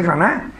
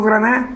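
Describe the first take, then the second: First: "Granada" with the d softened away, almost "Graná"; relaxed Andalusian "Granada". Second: "Granada" with every sound spelled out, full final d; careful, put-on standard "Granada"; stilted Granada. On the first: Speaker quoting how locals hear his Granada, relaxed. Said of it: "si yo digo Granada, suena impostado". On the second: Speaker showing his pronunciation would sound fake, stilted. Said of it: "suena impostado". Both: Shown as a demonstration.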